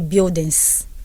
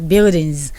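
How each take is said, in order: First: The final sound is a hissing s. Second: The final sound is a buzzing z. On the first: The speaker calls it wrong. "So don't say buildings" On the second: The speaker calls it right. "Say buildings"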